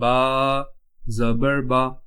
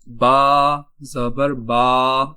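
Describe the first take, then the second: First: The final vowel is short and smooth. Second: The final vowel is stretched out long. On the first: The speaker calls it right. "बगैर खींचे पढ़ना है" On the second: The speaker calls it wrong. "ये इस तरह पढ़ना सही नहीं होगा"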